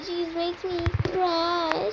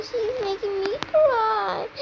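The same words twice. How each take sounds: First: Said in the usual way. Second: Higher whiny fake-cry complaint; hammed-up crybaby tattling to mom; mock crying whine. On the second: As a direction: pretend to be on the verge of tears.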